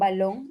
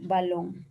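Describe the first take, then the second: First: The b sounds nasal, a full closure. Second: The b is a soft fricative through the lips. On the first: "esta va a venir a ser nasal" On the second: "es un fricativo bilabial"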